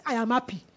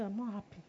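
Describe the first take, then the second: First: Plain-voiced, steady counter-declaration; standing firm. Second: Very soft, resigned admission; acted dejection. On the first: Preacher answering the morning thought, firmly declaring. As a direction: answer the gloomy thought with conviction. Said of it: "I will stand and say". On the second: Preacher agreeing with the gloomy thought, softly dejected. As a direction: give in quietly, mock downhearted.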